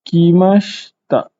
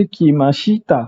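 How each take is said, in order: First: Kimashita slowly with the i after sh dropped; Japanese-style kimashita. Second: Kimashita with every vowel sounded, shi-ta in full; spelled-out kimashita. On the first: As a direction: say Kimashita the way Japanese speakers do, shi swallowed. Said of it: "Perasan tak cara Hanis baca". (sebut Kimashita macam orang Jepun, bunyi i selepas sh digugurkan) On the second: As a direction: read kimashita letter by letter as written. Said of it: "Sepatutnya kita baca kimashita". (sebut kimashita penuh ikut ejaan, shi-ta jelas) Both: Shown as a demonstration.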